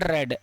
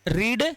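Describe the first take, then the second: First: The vowel sounds like the 'e' in 'bed'. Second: The vowel sounds like the 'ee' in 'see'. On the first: It is the past form of the verb. "रीड की second form पढ़ा जाता है रेड" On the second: It is the present form of the verb. "रीड की first form रीड होती है"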